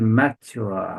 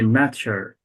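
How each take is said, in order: First: The ending is said in a British accent. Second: The ending sounds like the end of 'nature'. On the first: "In British accent" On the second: "like nature"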